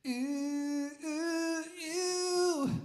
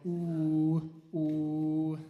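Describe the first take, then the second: First: High, rising sung oohs, the way not to do it; flat, spread ooh sung high; wrong ooh. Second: Slow, louder ooh with lips rounded; rounded ooh held long. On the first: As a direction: sing ooh climbing higher and higher. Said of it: "We're not doing like that". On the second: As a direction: sing ooh through a straw-shaped mouth. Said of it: "round ooh". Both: Shown as a demonstration.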